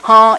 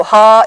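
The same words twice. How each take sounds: First: "ha" with the velum lowered so the ah hums through the nose; "ha" with a nasal ah, air through nose and mouth. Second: "ha" said as a plain oral ah with the velum closed, no air through the nose. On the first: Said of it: "with some nasal component to it because the velum is down". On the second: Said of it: "ha is hide, ha is night". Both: Shown as a demonstration.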